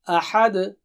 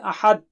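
First: The final d is released with a strong bounce. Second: The final d is swallowed without a bounce. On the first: The speaker calls it right. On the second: The speaker calls it wrong.

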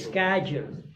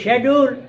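First: It is said in an American English accent. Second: It is said in a British English accent. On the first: "American, they say schedule" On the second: "In the British, they say schedule"

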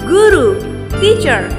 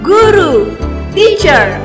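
First: It is said at a normal volume. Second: It is said more loudly.

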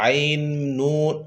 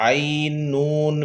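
The two takes are said the same way.

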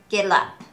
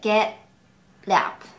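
First: The t links smoothly into up. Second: The t and up are said separately. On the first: The speaker calls it right. "T の発音からしっかりup に行く" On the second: The speaker calls it wrong. "get up get up ではなく"

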